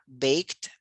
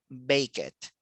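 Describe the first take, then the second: First: The word is said as one single syllable. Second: The ending is said as an extra syllable. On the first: The speaker calls it right. "él necesita escuchar baked" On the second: The speaker calls it wrong. "siempre dicen bake it, porque los hispanohablantes suelen pronunciar cada sílaba"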